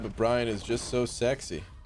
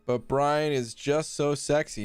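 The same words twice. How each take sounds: First: It is read at a normal, quieter volume. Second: It is read out at a louder volume.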